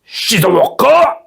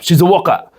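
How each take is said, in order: First: It is said in a theatrical samurai-style voice. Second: It is said in a plain everyday voice.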